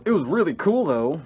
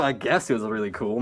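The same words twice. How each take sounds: First: Lightly higher voice, lifting at the end; mildly put-on higher quote; imitating tripping friend. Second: Puff, then an unimpressed lower aside; low-key sceptical echo; dry concession. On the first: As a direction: mimic a friend's pleased afterthought. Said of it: "He goes". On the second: Real, not acted. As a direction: concede it drily, unconvinced. Teller's dry answer to the quote.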